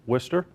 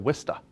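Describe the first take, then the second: First: It is said in a general American accent. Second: It is said in a local Massachusetts accent.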